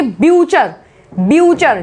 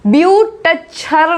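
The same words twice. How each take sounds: First: ब्यूचर as byoo-char, falling; silent T. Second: ब्यूटचर as byoot-char, t separate; wrong, T sounded. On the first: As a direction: drop the t in ब्यूचर. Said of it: "बोलेंगे ब्यूचर". (ब्यूचर में टी silent) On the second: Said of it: "नहीं बोलेंगे". (ब्यूटचर में टी बोलकर) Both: Shown as a demonstration.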